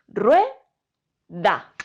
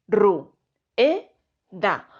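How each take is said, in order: First: The vowels u and e are joined together. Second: The vowels u and e are split apart. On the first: The speaker calls it right. "en un solo golpe de voz" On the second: The speaker calls it wrong. "yo no la dividiría diciendo"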